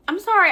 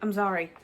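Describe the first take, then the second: First: High, loud tearful sorry; sorry breaks up into crying; crying apology. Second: Said in the usual way. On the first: Real, not acted. Apologizing to viewers through real tears, high and loud. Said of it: "I am crying".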